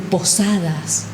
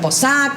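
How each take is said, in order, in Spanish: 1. Se pronuncian completas todas las sílabas de la palabra. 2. Se eliminan las sílabas finales de la palabra. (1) "ser un locutor nacional y decir posadas" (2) "cuando no pronunciamos, por ejemplo, todas las letras"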